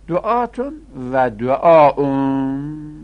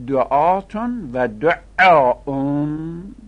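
First: "دعاون" with a single, undoubled ع; missing tashdid. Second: "دعاون" with a doubled, held ع; with tashdid. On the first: Teacher reading the plural forms as written, "دعاون" without tashdid. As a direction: read "دعاون" loud and drawn out, without doubling the ع. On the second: Teacher correcting a misprinted plural, "دعاون" with tashdid on the ع. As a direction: lean hard and loud on a doubled ع in "دعاون", very slowly. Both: Shown as a demonstration.

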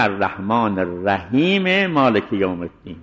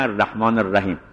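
First: الرحیم ending in a short e, linked into مالک; joined without pause. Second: الرحیم closed on a silent m; pausal ending. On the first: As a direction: carry الرحیم into مالک with a voiced final vowel. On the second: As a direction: stop on the m of الرحیم, no vowel. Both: Shown as a demonstration.

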